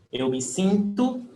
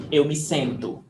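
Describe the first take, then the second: First: "sinto" with nasal i, raised and left hanging; i vowel contrast. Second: "sento" with nasal e, falling close; e vowel contrast. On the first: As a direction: set "sinto" with an i against its e twin. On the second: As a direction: set "sento" with an e against its i twin. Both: Shown as a demonstration. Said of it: "We change the E for the I".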